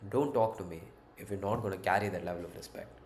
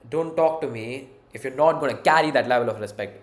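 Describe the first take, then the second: First: It is said calmly and politely, in a friendly way. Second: It is said loudly and harshly, almost shouted. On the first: The listener is a friend. "you tell this a bit more politely" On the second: The listener keeps being disrespectful. "like kind of shouted at them"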